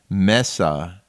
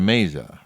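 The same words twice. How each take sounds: First: The name is pronounced the Spanish way. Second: The name is pronounced the English way. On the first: The speaker calls it right. "the pronunciation of your maiden name" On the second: The speaker calls it wrong. "instead of"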